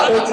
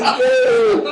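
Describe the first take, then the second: First: Said in the usual way. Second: Much higher, squeaked through a laugh; squeaky laughing. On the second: Real, not acted. Blaming his friend Dave, squeaked through laughter.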